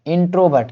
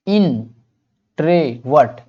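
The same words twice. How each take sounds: First: Said in the usual way. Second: इंट्रोवर्ट very slowly, in - tro - vert; syllable-by-syllable. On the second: Shown as a demonstration. Teacher introduces the next word, इंट्रोवर्ट slowly by syllable. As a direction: pull इंट्रोवर्ट apart into three beats. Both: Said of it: "pronounce करने में इस तरह से".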